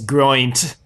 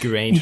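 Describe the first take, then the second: First: The name is said as 'groint'. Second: The name is said as 'Geraint'. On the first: This is how the character in the show says it. The speaker calls it right. "the way Gwen says it, she says groint" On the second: This is the pronunciation the hosts had been using. The speaker calls it wrong. "we're pronouncing Geraint wrong"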